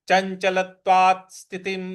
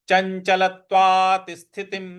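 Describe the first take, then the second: The two takes are said the same way.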